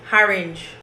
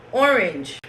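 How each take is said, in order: First: "orange" with an added h, harinj; Jamaican mispronunciation. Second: Said in the usual way. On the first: Shown as a demonstration. Showing how Jamaicans mispronounce "orange", as harinj. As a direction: start "orange" on a breathed h. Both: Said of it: "words that Jamaicans mispronounce".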